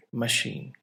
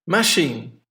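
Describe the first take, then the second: First: Ma-CHINE, said softly; stress on second syllable. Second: MA-chine, MA hit hard; stress on first syllable. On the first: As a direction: say machine with the weight on chine. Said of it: "put it on the second one". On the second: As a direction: say Machine with the weight on Ma. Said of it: "stress, on the first syllable". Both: Shown as a demonstration.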